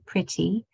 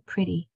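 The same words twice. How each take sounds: First: The middle consonant is a clear T sound. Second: The middle consonant sounds like a D. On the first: "if we said it properly" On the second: "usually we just say pretty"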